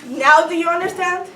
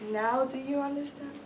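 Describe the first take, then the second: First: It is spoken at normal volume with a short pause. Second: It is spoken softly with a longer pause. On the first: The speaker calls it right. "I like it better the first way" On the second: The speaker calls it wrong. "pause a little longer and say it softer?"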